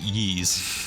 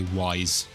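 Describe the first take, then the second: First: It is said with an ee vowel, like yeez. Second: It is said with an eye vowel, like wise. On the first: "I pronounce it like Yeez" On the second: "I used to say Wise"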